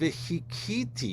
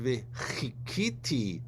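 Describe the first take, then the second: First: The middle consonant is a light plain h. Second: The middle consonant is a throaty guttural sound. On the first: I will strike the Lord. The speaker calls it wrong. "You pronounce it like a hey" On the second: I will wait upon the Lord. The speaker calls it right. "I will wait upon the Lord"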